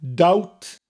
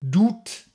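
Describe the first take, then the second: First: The vowel sounds like ow. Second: The vowel sounds like oo.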